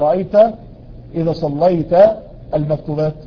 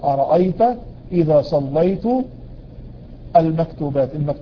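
First: The verb ends with a short a vowel. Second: The verb ends with a short u vowel. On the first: The speaker means the listener prayed. The speaker calls it wrong. "لو خليتها ... يعني بيكلم النبي" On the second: The speaker means he himself prayed. The speaker calls it right. "مضموم"

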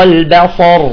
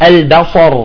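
No difference in how they are said.

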